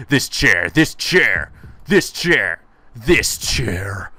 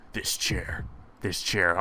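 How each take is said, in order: First: Loud, mounting fury at the chair; obsessive rage. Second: Very soft, low whispered menace; obsessive whisper. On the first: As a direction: spit it out harder each time. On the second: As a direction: whisper it like a fixation. Acted obsession, dropping to whisper. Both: Acted.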